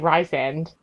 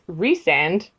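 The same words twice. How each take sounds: First: The first syllable sounds like 'rye'. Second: The first syllable sounds like 'reese'. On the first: "to me, it still looks like Rhysand" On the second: "R H Y S by itself would be Rhys. So then his name is Rhysand"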